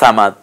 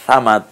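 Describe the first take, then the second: First: The first consonant is light and soft. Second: The same.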